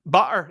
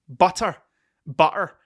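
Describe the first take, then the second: First: "Butter." with a clear t in the middle; careful butter. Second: "Butter." with the t dropped to a glottal stop, the Scottish way. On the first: Contrasting the Scottish "Butter." with a proper t sound. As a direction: pronounce the t in "Butter." fully. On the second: Showing viewers how Scots say "Butter." without the t. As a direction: say "Butter." as "bu'er", swallowing the t. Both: Shown as a demonstration. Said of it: "forget that there's, like, letters in the middle of words".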